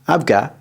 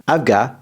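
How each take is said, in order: No difference in how they are said.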